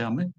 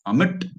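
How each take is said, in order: First: The final T is said very lightly. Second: The final T is said sharply, with extra force.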